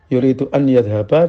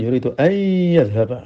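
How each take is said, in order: First: The n sound before yadhhaba is clearly kept. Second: The n sound merges into the following y.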